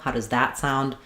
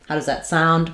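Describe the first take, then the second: First: The stress falls on the word that. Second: The stress falls on the word sound. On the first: This particular option is contrasted with other options. "If you're specifically trying to highlight that" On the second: A neutral request for an opinion. "More typical"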